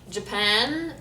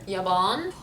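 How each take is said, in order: First: Japan with English J; American accent. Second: Japan as "ya-baan"; Lebanese pronunciation. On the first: Announcing it to viewers, American accent. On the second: Showing the Lebanese name, "ya-baan" for Japan. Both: Shown as a demonstration. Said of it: "say states and countries".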